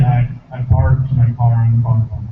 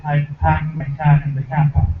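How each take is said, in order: First: "parked my car in the car park" with hard, rolled-in R; slow and lower, R sounds strongly pronounced. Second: Slow, dropped R New England accent; New England accent, "packed my cat in the cat park" with R dropped. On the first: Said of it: "It's a R, a little more strong". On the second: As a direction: say it like a Bostonian, no R sounds. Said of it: "In New England ... we say". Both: Shown as a demonstration.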